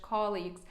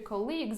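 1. Наголос на першому складі. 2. Наголос на другому складі. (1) "наче це ж colleagues" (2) "Чомусь багато людей ставлять не туди наголос"

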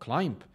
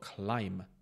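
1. Závěrečné B se vyslovuje. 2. Závěrečné B se nevyslovuje. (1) "to může být climb nebo climb" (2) "je to climb bez toho B"

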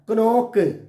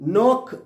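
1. n ന് മുമ്പ് k ശബ്ദം കേൾക്കുന്നു. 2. വാക്ക് നേരിട്ട് n ശബ്ദത്തോടെയാണ് തുടങ്ങുന്നത്. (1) "എഴുതിയ പോലെ തന്നെ വായിക്കും" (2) "അങ്ങനെയല്ല"

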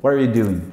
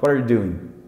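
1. As palavras são reduzidas e emendadas rapidamente. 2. As palavras são reduzidas e emendadas rapidamente.

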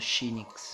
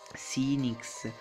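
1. Il nome inizia con un suono sh. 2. Il nome inizia con un suono s semplice. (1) "l'H in mezzo la pronuncio C" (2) "c'è gente che lo pronuncia Sinix"

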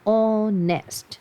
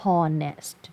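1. คำนี้ขึ้นต้นด้วยสระ ไม่มีเสียง h 2. คำนี้ขึ้นต้นด้วยเสียง h ชัดๆ (1) "ไม่ออกเสียงเหอะนะ ... ออกเสียงว่า" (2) "ไม่อ่านว่า"

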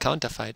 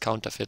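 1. Die letzte Silbe klingt wie 'fight'. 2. Die letzte Silbe klingt wie 'fit'. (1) "Ich würde mal Counterfight sagen" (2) "eigentlich richtig ausgesprochen wäre es Counterfeit"

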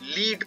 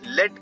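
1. स्वर लंबी 'ee' ध्वनि है। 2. स्वर छोटी 'e' ध्वनि है। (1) "जब आप इसे लीड पढ़ेंगे तो इसका मतलब होता है टू हेड और कमांड" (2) "जब आप इसे लेड पढ़ेंगे तो ये एक धातु मेटल होती है"

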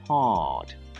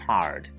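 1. Британський акцент; R після голосного не вимовляється. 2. Американський акцент; R після голосного вимовляється. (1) "британський" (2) "американський варіант"

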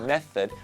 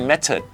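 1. พยัญชนะตัวกลางเป็นเสียง 'th' เบาๆ 2. พยัญชนะตัวกลางเป็นเสียง 't' ธรรมดา (1) "ปลายลิ้นมาแตะฟันบนพ่นลมเบาๆ" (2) "ถ้าตัว th ไม่ไหวก็จะเป็น"

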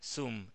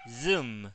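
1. Se dice con sonidos de estilo español. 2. Se dice con sonidos ingleses. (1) "No es más Zoom" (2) "es Zoom"

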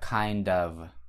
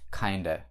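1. Слово 'of' произносится полностью. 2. Слово 'of' сокращается до краткого гласного. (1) "Либо kind of" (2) "Говорят мне просто kinda"

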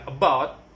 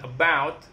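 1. Vokal itu tidak punya peluncuran 'ow' yang jelas. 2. Vokal itu meluncur dengan jelas sebagai 'ow'. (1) "bukan about" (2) "but about"

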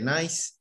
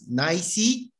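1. La palabra se dice con una sílaba. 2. La palabra se dice con dos sílabas. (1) "o pronuncias solamente nice?" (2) "¿Pronuncias nicey"

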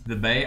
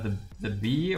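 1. Das letzte Wort endet auf den Vokal 'ay'. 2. Das letzte Wort endet auf den Vokal 'ee'. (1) "Aber die meisten sprechen ihn nicht The Bay aus" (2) "sondern eher The Bee oder so"

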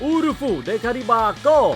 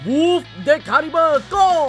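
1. ชื่อนี้พูดด้วยสำเนียงญี่ปุ่น 2. ชื่อนี้พูดด้วยสำเนียงคล้ายอังกฤษ

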